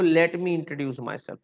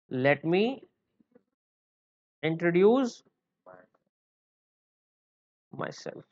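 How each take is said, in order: First: Said in the usual way. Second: Softly dropping away on the last word; feed it slowly for students to repeat; slow dictation. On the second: Shown as a demonstration. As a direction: piece by piece with long gaps. Teacher breaks it up for class.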